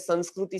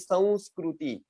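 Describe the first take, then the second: First: The nasal is said as a plain n sound. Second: The nasal is said as a nasalized v sound. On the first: The speaker calls it wrong. "तो न बोलते हम" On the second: The speaker calls it right. "ज्यादा सही संस्कृति, व व का उच्चारण करना है नाक में"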